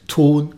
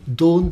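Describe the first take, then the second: First: It starts with a hard standard T. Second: It starts with a soft Saxon D.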